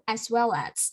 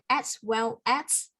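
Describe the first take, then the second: First: The stress falls on the word well. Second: The stress falls on the word as. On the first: The speaker calls it right. "we stress the word well" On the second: The speaker calls it wrong. "not as and at"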